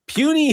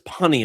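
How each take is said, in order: First: The first vowel sounds like 'you'. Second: The first vowel sounds like 'uh'. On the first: The speaker calls it right. "Hulk always said puny humans" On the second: The speaker calls it wrong. "I read it as punny"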